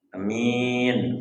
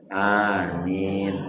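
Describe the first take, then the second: First: The first vowel is short, the second long. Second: Both vowels are long. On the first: It means honest. The speaker calls it wrong. "Kalau hanya pendek, minyak panjang" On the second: It is the proper amen. The speaker calls it right. "hanya sama, minnya sama. Dua harkat, dua harkat"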